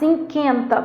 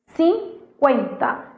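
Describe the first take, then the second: First: The u after the q is silent. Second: The u after the q is sounded. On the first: The speaker calls it wrong. "Você não fala" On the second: The speaker calls it right. "Esse U é pronunciado"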